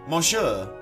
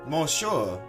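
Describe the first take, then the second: Both takes have the same delivery.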